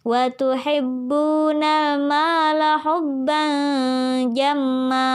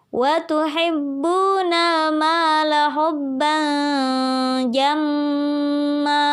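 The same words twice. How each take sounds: First: The doubled m is short without a held hum. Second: The doubled m is nasalized and held long. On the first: "Beda kalau kita baca tanpa gunnah" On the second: "Gunnahnya ada di bagian jamma. Di sana kita tahan dua harokat"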